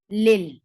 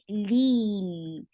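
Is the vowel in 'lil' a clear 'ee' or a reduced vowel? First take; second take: reduced; clear ee. First: The vowel is reduced and not a clear 'ee'. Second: The vowel is a clear, full 'ee' sound. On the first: The speaker calls it wrong. "I'm not saying it lil" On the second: The speaker calls it right. "I'm saying it lil"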